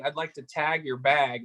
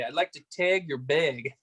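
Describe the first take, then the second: First: It is said in an American accent. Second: It is said in a Canadian accent. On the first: "Instead of saying" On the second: "they say"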